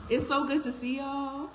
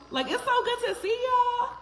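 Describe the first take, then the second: First: Said in the usual way. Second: Jumps way up in pitch, gushing "so good"; excited. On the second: Real, not acted. Host repeating her welcome to viewers, now gushing high. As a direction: say it again, squealing with joy.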